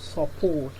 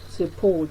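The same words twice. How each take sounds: First: The unstressed vowel is a full vowel. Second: The unstressed vowel is a weak schwa. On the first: The speaker calls it wrong. "instead of support" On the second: The speaker calls it right. "So this is pronounced support"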